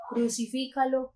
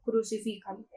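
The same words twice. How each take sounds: First: Raised, higher call of the crowd; crowd shouting. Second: Said in the usual way. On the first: A narrator's reading. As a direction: lector voicing the crowd's demand, moderately raised.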